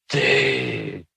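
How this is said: It is said with dismay and reproach. You have made a big mistake. "oh boy, you've messed up big time"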